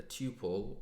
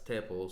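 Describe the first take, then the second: First: "tuple" with a long, TOO-pul vowel; long-vowel pronunciation. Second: "tuple" rhyming with "supple"; alternative pronunciation. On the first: Teacher names the Python collection type, "tuple" with long first vowel. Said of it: "other people pronounce it as tuple". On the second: Teacher shows how other people say it, "tuple" with short first vowel. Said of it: "I have heard other people pronounce it as". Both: Shown as a demonstration.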